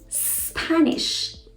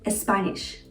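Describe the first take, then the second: First: It begins directly with the s sound. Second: An extra e sound comes before the s. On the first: The speaker calls it right. "Say Spanish" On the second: The speaker calls it wrong. "Don't say Spanish"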